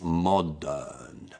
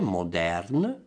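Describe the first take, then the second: First: The R sound is dropped. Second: The R sound is pronounced. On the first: The speaker calls it right. "It's modern" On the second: The speaker calls it wrong. "non è modern, no"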